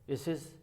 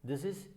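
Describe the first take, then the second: No difference in how they are said.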